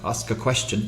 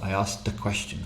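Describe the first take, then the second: First: The ending sound after ask is dropped. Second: The ending sound links into the next vowel. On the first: The speaker calls it wrong. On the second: The speaker calls it right.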